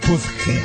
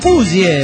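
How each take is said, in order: First: The word ends with a harsh throaty 'heh' sound. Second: The word ends with a soft 'yeh' sound. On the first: The speaker calls it wrong. "no es puzje" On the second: The speaker calls it right. "es puzie, puzie con acento en la U"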